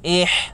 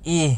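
First: The h is harsh, squeezed from the throat. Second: The h is a light, breathy sound. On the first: The speaker calls it wrong. "bukan huruf ha" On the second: The speaker calls it right. "itu huruf h"

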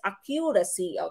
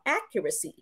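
First: The stress falls on a later syllable. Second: The stress falls on the first syllable. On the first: The speaker calls it wrong. "Don't pronounce this as accuracy" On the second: The speaker calls it right. "nasa first syllable yung ating pong stress"

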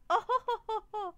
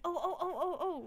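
First: It sounds like a hearty laugh. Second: It sounds like excited exclamations.

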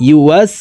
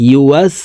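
Both takes have the same delivery.

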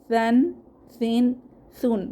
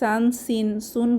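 First: The first consonant is said with a soft sound. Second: The first consonant sounds like a plain s. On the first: The speaker calls it right. "সুন্দর করে বলবো ... নরম আওয়াজে" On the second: The speaker calls it wrong. "সিনের মতো হয়ে যাবে"

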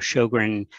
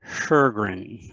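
First: The name is said with an American pronunciation. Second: The name is said with a throatier Swedish pronunciation. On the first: This is the simpler form used in everyday speech. The speaker calls it wrong. "That is very much the Americanized version" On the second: This is how the name is said in its home country. The speaker calls it right. "It's a throatier sound, kind of more like"

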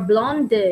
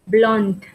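First: A vowel sound follows the final D. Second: The word ends cleanly on the D. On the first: The speaker calls it wrong. "You don't say blonde or blonde" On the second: The speaker calls it right. "You stop at the D sound"

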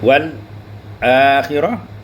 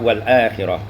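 First: There is a brief stop after the l sound. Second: The l runs straight into the next word. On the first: "sakat pada lam" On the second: "khalad tidak sakat"

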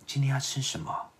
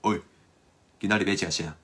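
First: It is said in a gentle, considerate tone. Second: It is said in a casual, blunt tone.

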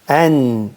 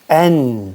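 Both takes have the same delivery.

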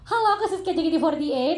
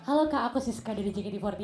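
First: It is said in a higher, usual pitch. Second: It is said in a slightly lower pitch.

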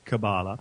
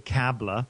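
First: The word is said the American way. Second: The word is said the local, non-American way. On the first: "in America they do say Kabbalah" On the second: "Here we say Kabbalah"

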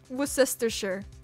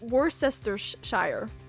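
First: Several written syllables of the word are dropped. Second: Every written syllable of the word is sounded out. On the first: The speaker calls it right. "but it's pronounced Worcestershire" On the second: The speaker calls it wrong. "it's like written like Worcestershire"

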